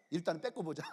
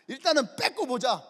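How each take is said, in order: First: Low, soft aside; understated plotting voice; low-key scheming. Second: Louder, punched declaration; mock-resolute battle decision; emphatic decree. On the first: Retold or imitated. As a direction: float the plan quietly, matter-of-factly. First take of the elders' decision. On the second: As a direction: announce the plan forcefully. Repeats the decision forcefully.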